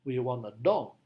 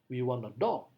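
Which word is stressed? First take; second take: dog; dog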